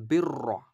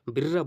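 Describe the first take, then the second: First: বিররা ending in rounded "ro"; full heavy r. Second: বিররা with a light "birra" ending; wrong thin r. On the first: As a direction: thicken the r of বিররা. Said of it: "রটাকে আমরা মোটা করে দেবো". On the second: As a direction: say বিররা thin, lips spread. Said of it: "সঠিক উচ্চারণ হবে না". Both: Shown as a demonstration.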